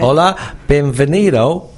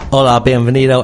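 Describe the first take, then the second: First: The greeting is spoken slowly and deliberately. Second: The greeting is spoken at a normal pace.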